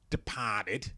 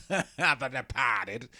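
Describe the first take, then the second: First: Said in the usual way. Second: Laughing slowly. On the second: Real, not acted. Repeats title, laughing slowly.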